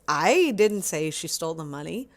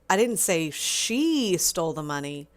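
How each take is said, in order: First: The stress is on the word I. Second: The stress is on the word she.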